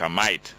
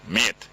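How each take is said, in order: First: Mate said Cockney style as /maɪt/, like "might"; a mate, with mate drawn out Cockney-fashion as /maɪt/. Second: Said in the usual way. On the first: Retold or imitated. Host mocking a caller's friend, saying mate Cockney style. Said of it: "like to sound so much like a, or a Cockney". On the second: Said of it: "It's not Mike, a mate, mate".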